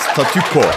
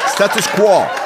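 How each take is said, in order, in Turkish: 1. Türkçe kelime olarak statüko diye söyleniyor. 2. Özgün haliyle status quo olarak söyleniyor. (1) "Aynen telaffuz ettiğimiz gibi Türkçe yaptık" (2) "orijinali status quo'dur bunun"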